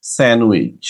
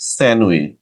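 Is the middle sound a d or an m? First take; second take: m; m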